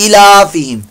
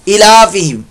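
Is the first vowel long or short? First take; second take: short; short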